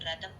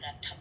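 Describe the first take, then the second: First: The middle consonant is said without a breath. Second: The middle consonant is said with a breath. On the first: The speaker calls it wrong. "రథం కాదు" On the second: The speaker calls it right. "తత్థాల్లో ధా మహాప్రాణం"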